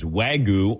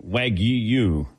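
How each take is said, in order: First: Wagyu as WAG-oo, no y glide; unsure pronunciation. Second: Wagyu as WAG-yoo, with a drawn-out y glide; corrected pronunciation. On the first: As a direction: say Wagyu slowly, ending in a plain "goo". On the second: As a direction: repeat Wagyu carefully, sounding "gyoo". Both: Shown as a demonstration. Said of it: "how do you say it".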